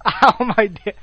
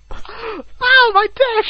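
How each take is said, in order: First: Said in the usual way. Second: Mock scream. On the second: Friend imitating the screaming guy, mock yell. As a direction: yelp it in comic agony.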